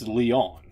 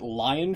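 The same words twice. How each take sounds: First: Lyon is pronounced the French way. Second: Lyon is pronounced like the English word lion. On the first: The speaker calls it right. "It's it's Lyon" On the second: The speaker calls it wrong. "I would pronounce it Lyon, France, but it's it's not"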